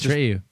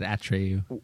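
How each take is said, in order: First: The stress is not on the first syllable. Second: The stress is on the first syllable. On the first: The speaker calls it right. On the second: The speaker calls it wrong.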